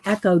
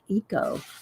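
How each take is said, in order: First: The first vowel sounds like 'eh'. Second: The first vowel sounds like 'ee'. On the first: Other people say it this way. "I just hear people going echo dyed paper" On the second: The speaker thinks it is really said this way. "but it's like eco to me"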